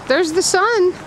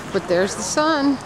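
First: High, loud excited cry; thrilled the sun is out. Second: Said in the usual way. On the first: Real, not acted.

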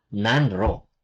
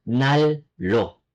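First: "nanro" slowly, n and r kept apart; wrong spelling pronunciation. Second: "nallo" with a long double L; correct assimilated pronunciation. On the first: Korean teacher ruling out the spelled form, spelling pronunciation. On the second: Korean teacher saying she needs a heater, assimilated pronunciation. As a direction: merge n and r into ll in "nallo". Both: Shown as a demonstration. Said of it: "not nanro".

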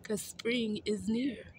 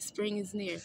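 First: 'Cause spring is near said slowly, high, each word stretched; drawn out like a teacher giving the answer; slow emphatic answer. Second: Said in the usual way. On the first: Shown as a demonstration. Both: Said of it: "That's right".

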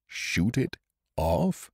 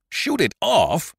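First: Slow, musing echo of the words; slow repeat. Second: High, slow astonished cry; amazed exclamation. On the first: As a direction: turn the words over slowly. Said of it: "he repeated". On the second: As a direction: blurt it out in sheer amazement. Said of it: "exclaimed Doctor Prescott in amazement". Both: A narrator's reading.

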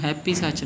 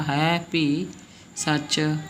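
First: ਹੈਪੀ ਸੱਚ quick, like English happy; run-together mistake. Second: ਹੈ ਭੀ as two long words; separated words. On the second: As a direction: stretch ਹੈ, then ਭੀ, then ਸੱਚ. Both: Shown as a demonstration. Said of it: "ਇਹਨੂੰ ਹੈਪੀ ਸੱਚ ਨਹੀਂ ਬੋਲਣਾ".

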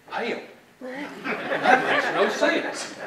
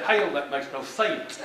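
First: Slow, drawn-out Texas twang on Hell; a Texan scoffing, stretched out slow; Texan drawl. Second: Hell said as heyl, a Texan scoff; flat Texan dismissal, a bit slow; Texas drawl. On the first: Speaker imitates how Texans say it, in a drawn-out Texas drawl. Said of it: "as they say in Texas". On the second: Speaker repeats the Texan phrase, in a Texas drawl. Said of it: "That's how they would say that". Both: Retold or imitated.

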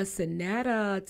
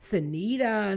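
First: "Sonetta" with a short e as in net, slowly; short-e pronunciation. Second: "Sonita" with a long ee in the middle; long-ee pronunciation. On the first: Host toying with guest's name, "Sonetta" said suh-NET-uh. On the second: Host toying with guest's name, "Sonita" said suh-NEE-tuh. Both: Shown as a demonstration. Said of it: "is it Sonetta or Sonita".

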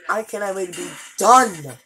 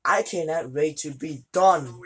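First: Louder emphatic repeat. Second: Said in the usual way. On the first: Real, not acted.

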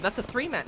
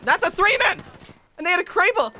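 First: Said in the usual way. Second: Alarmed shout. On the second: Real, not acted. Alarmed repeat.

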